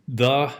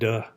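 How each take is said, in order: First: The word begins with a soft th sound. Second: The word begins with a hard d sound. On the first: The speaker calls it right. "the instead of duh" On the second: The speaker calls it wrong. "instead of duh"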